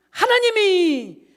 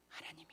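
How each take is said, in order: First: 하나님이 shouted high and drawn out slowly; shouted answer. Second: A breathless whisper of 하나님이; whispered answer. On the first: Answers own question, shouting. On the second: Answers own question softly. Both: Acted.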